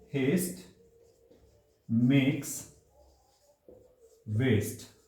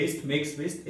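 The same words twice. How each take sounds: First: Each word alone with long pauses; slow dictation. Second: Said in the usual way. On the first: Shown as a demonstration. Teacher dictating the proverb word by word to students. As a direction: spell it out slowly for the notebook. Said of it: "आप इसको अपनी notebook में भी लिख सकते हैं". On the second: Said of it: "एक कहावत भी है".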